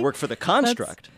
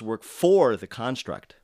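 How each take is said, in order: First: The main stress falls on an expected word. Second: The main stress falls on an unexpected word. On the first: The speaker calls it right. "He should have said" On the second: The speaker calls it wrong. "you're stressing the wrong word"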